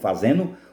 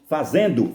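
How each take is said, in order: First: The ending is said without a 'd' sound. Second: The ending is said with a 'd' sound.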